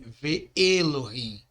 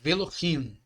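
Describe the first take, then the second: First: The two words are said separately, vowel kept. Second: The two words merge into one without a break. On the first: The speaker calls it wrong. "Ele não fala Ve Elohim" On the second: The speaker calls it right. "Fala Velohim"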